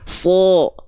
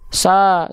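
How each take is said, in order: First: The syllable sounds thick, with an o-like vowel. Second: The syllable sounds thin, with a clear a. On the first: "sekarang angkat pangkal lidahnya" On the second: "Kalau nggak diangkat"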